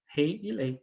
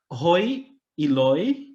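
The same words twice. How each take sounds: First: "rei e lei" as in Portuguese, ei diphthongs; "rei e lei" with a Portuguese ei sound; Portuguese-style old French. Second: "roi e loi" with a clear oi diphthong, slow; "roi e loi" as a Portuguese speaker tries French; Portuguese-flavoured French. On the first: Teacher showing the old French pronunciation, "rei e lei" as in Portuguese. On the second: Teacher showing how French changed, slow Portuguese-flavoured "roi e loi". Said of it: "uma tentativa de pronúncia aqui". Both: Shown as a demonstration.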